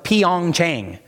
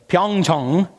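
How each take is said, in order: First: The name is said in an English-style way. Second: The name is said in a Korean-style way. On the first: The speaker calls it wrong. "I always thought it was Pyeongchang" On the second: The speaker calls it right. "I heard the locals pronounce it, and it's Pyeongchang"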